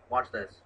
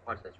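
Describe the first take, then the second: First: Said in the usual way. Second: Softer repeat of watch this; quiet watch this. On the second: Real, not acted. Friend hushes the viewers before the credits, quiet.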